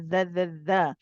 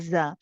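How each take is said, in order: First: It is a voiced th sound, tongue between teeth. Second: It is a z sound, tongue behind teeth. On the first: The speaker calls it right. "it's pronounced as a dha dha dha" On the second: The speaker calls it wrong. "it's pronounced as a za"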